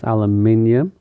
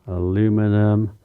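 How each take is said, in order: First: It is said in the speaker's home form. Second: It is said in the foreign form.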